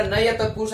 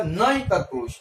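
First: नय said as two syllables, "na-ya"; separate ya. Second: नय run together as one syllable, "nay"; joined n and y. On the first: Teacher quoting what some call it, नय as "na-ya". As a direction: give नय a full final "ya". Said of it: "पण य हा perfect आला नाही". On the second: Teacher showing the combined sound, नय as one syllable "nay". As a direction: glide न into य in नय, no full "ya". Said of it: "य आणि न एकत्र म्हणायचा". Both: Shown as a demonstration.

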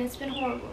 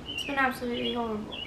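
First: Said in the usual way. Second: Put-on English accent, said quietly; quick, soft aside in a mock English accent. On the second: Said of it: "that's my English accent".

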